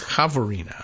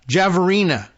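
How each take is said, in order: First: The name is pronounced the Spanish way. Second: The name is pronounced the American English way. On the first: "unless she's Puerto Rican and she's Javorina" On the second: "That's the Americanized way of saying it"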